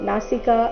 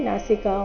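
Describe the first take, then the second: Both takes have the same delivery.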